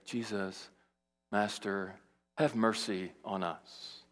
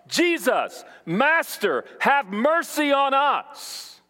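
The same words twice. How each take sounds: First: The plea is said quietly and restrained. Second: The plea is cried out loudly. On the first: Keeping cool so as not to draw attention. The speaker calls it wrong. "traditional Baptist worship service where they say" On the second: A desperate cry for help. The speaker calls it right. "It is a loud cry for help"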